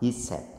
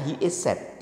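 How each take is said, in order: First: The first two words merge into one quick syllable. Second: Each word is said fully and separately.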